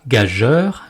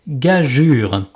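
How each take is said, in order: First: The last syllable rhymes with 'heure', as 'jeur'. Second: The last syllable has a 'u' vowel, as 'jure'. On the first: The speaker calls it wrong. "on ne dit pas gageur" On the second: The speaker calls it right. "mais gageure"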